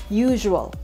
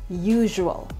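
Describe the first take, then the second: Both takes have the same delivery.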